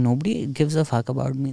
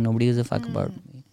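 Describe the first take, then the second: First: It is said in a cheerful, upbeat tone. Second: It is said in a sad, downcast tone. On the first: Being ignored is freeing. "But if you flip it, that's also a great thing" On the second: Being ignored is lonely. "You can say it like a very sad thing"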